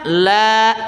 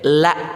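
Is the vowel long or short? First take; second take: long; short. First: The vowel is held long. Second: The vowel is short. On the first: It means not. "kita baca panjang la" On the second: It means truly. "dibaca pen pendek la"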